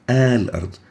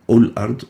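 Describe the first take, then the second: First: The word begins with an a vowel. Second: The word begins with a u vowel. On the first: The speaker calls it right. "it will always be with fatha. We say a" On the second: The speaker calls it wrong. "not ul-ard"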